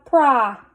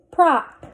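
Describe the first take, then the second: First: Prop with a held vowel, delayed final p; blended slowly. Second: Said in the usual way. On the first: Shown as a demonstration. Teacher sounding out a word for readers, blended slowly. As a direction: hold the o in prop, then release p. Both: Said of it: "Let's read this".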